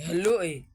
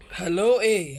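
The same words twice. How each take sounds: First: Said in the usual way. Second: Mock loud hello. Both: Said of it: "يا عم اللي بتقول هلو".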